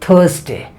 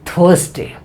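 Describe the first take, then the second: Both takes have the same delivery.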